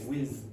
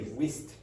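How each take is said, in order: First: The final ending sounds like a D. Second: The final ending sounds like a T. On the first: The speaker calls it right. "They say whizzed" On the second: The speaker calls it wrong. "You wouldn't say whizzed"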